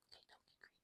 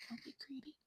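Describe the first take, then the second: First: Breathy near-silent whisper of a warning; teasing whisper. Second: Said in the usual way. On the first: Shown as a demonstration. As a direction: whisper it like a secret tease.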